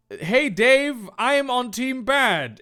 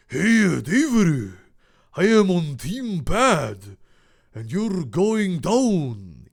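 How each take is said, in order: First: Higher, louder character voice; villain's challenge. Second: Slow, heavy mock Japanese accent; hammed-up villain with a badly faked Japanese accent; exaggerated Japanese accent. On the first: Acted. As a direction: announce yourself as the baddie. Kit Kat's line, first take. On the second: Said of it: "tremendously racist Japanese accent".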